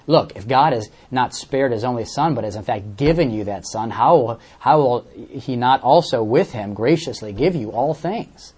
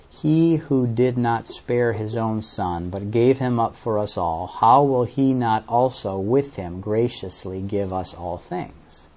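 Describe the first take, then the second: First: Louder, rising, driving the "how" home; louder, insistent paraphrase ending on a rising question; Paul's point pressed home. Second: Reading the verse. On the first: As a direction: press "how, how will He not" as a rising plea. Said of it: "He's saying something like this". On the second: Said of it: "This is how it usually reads". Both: Retold or imitated.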